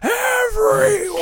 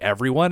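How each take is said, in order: First: It is yelled loudly. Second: It is said at normal volume.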